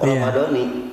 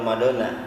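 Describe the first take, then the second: First: The word ends with an 'ee' vowel. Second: The word ends with an 'ah' vowel. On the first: The speaker calls it right. "yang tepat itu menurut ilmu nahu Ramadhani" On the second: The speaker calls it wrong. "Bukan Ramadhana"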